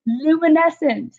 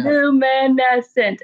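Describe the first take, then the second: First: High and slow, savouring "luminescent"; drawn-out awed child; amazed kid voice. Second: Put-on dreamy kid voice. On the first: Retold or imitated. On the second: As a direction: stretch "luminescent" even slower, hushed awe. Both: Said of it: "She's like".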